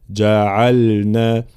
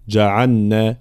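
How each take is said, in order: First: Slow جعلنا with separate ل and ن; correct clear lam. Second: جعلنا said as جعنّا; wrongly merged lam. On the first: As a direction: sound the ل fully in جعلنا, unmerged. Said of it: "هكذا". («جعلنا» بإظهار اللام قبل النون) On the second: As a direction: swallow the ل into the ن of جعلنا. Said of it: "فلا ندغم اللام في النون". («جعلنا» بإدغام اللام في النون خطأً) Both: Shown as a demonstration.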